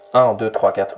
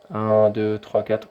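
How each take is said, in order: First: The radio voice is strong and punchy. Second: The radio voice is audible but somewhat less clear. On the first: "Vous voyez que là, ça percute" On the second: "on m'entend, mais un petit peu moins bien"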